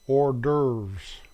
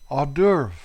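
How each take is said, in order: First: It is said with an American pronunciation. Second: It is said with a French pronunciation. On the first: "The American pronunciation is" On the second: "my favorite French word"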